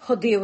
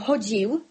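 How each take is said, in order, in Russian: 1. Первый гласный — о, затем твёрдый d. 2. Первый гласный — о, затем мягкий dz. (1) "і матаны, якія гавораць" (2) "А мы дзекаем, але гаворым"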